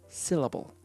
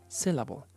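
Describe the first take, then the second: No difference in how they are said.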